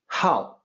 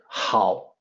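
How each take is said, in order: First: The syllable is said with a different pitch. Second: The syllable is said with its usual pitch. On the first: It is a verb meaning to like. "can be pronounced with a different pitch" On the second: It means good. "the character hao, which means good"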